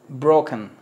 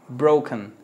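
The two takes are said the same way.

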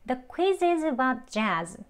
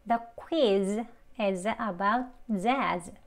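First: It is said quickly, words linked together. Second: It is said slowly, each word kept separate. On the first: "대화 발음으로 조금 이제 빠르게 또 해볼게요" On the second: "책 발음으로 먼저 천천히 연습해 볼게요"

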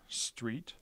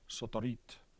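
First: No extra vowels are added to the word. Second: Extra vowels are added between the consonants. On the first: "Here's an English word" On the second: "A Japanese speaker would be more likely to pronounce it something like sotorit"

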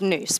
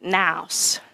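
First: The word is said the non-Australian way. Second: The word is said the Australian way. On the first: "The rest of the world says noose" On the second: "in Australia, you pronounce it nous"

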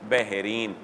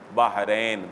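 First: The final syllable has an 'ee' vowel. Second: The final syllable has an 'ai' vowel. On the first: This is the commonly known form. "हमारे यहाँ मारूफ वो क्या हो गया?" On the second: This is the original form meaning two seas. "लेकिन असल वो क्या है?"

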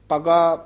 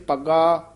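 No difference in how they are said.

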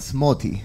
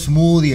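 First: The middle consonant is a plain 't' sound. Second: The middle consonant is an English 'th' sound. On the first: The speaker calls it right. "no juegan, Smoty" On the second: The speaker calls it wrong. "a nada de estar por ahí diciendo Smoothie"

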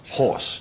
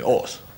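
First: The h at the start is pronounced. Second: The h at the start is dropped. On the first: "instead of saying horse" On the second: "they will say horse"

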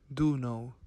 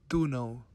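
Both takes have the same delivery.

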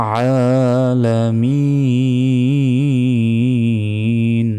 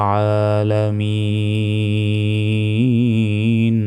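No difference in how they are said.

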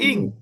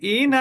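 First: It ends with a hidden nasal ng sound. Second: It ends with a clearly pronounced n sound. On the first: The noon is hidden with nasalization before the next letter. "ইং হলো ইকফা" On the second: The noon is pronounced openly without hiding. "ইন হচ্ছে ইজহার"

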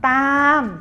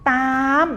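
First: The word is said on a falling tone. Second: The word is said on a high tone. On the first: "ตามเป็นเสียงโท" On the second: "ตามเป็นเสียงตรี"

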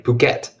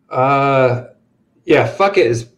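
First: It does not sound like the English phrase 'fuck it'. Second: It sounds exactly like the English phrase 'fuck it'. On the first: This is the local, proper pronunciation. The speaker calls it right. "That's how you really pronounce it" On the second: This is how the spelling looks to an English reader. The speaker calls it wrong. "It's just what I call it"

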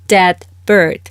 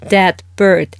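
Both takes have the same delivery.

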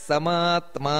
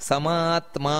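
No difference in how they are said.

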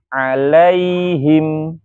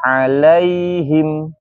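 No difference in how they are said.

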